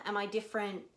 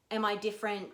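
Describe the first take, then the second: No difference in how they are said.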